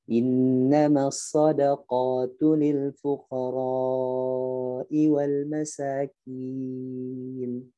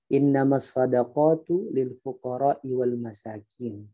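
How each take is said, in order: First: The long vowels are held stretched out. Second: All the vowels are read short. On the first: The speaker calls it right. "dipanjangin di mat fuqara, innama, masakin" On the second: The speaker calls it wrong. "semuanya dibaca pendek"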